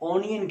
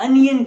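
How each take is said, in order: First: The first vowel sounds like 'oh'. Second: The first vowel sounds like 'uh'. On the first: The speaker calls it wrong. "This is incorrect pronunciation" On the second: The speaker calls it right. "then you will be able to get that"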